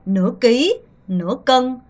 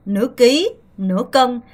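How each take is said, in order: Both takes have the same delivery.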